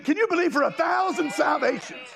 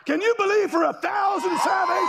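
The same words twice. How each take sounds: First: Preacher's call. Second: Pitched higher and shouted; rising revival shout; louder preacher's shout. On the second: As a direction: push it to the congregation harder. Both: Real, not acted.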